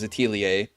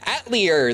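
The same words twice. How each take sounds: First: The word is said without an R sound. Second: The word is said with an R sound. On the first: It sounds snobbish. "you basically don't pronounce the R" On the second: It is the English dub's way. "they called it an Atelier the whole time"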